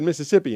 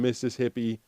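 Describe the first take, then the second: First: It is run together into one word. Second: It is said as two clearly separate words. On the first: It sounds like the name of the state. "she just said Mississippi" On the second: It names the wives of a hippie. "you have to say it right"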